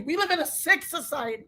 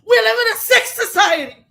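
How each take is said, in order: First: Much softer, weary and disgusted; hushed, sickened; quiet disgust. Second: Higher, louder, shouting it out; loud outraged cry; shouted outrage. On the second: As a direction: blast it at the world. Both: Real, not acted.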